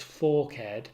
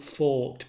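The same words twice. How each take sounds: First: "forked" said as two syllables, FOR-ked; sounded final syllable. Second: Said in the usual way. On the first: Shown as a demonstration. Lecturer explaining the grave accent, "forked" pronounced as two syllables, FOR-ked. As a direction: give "forked" a separate -ked ending. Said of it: "a grave accent so that forked becomes pronounced forked". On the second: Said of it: "so that forked becomes pronounced forked".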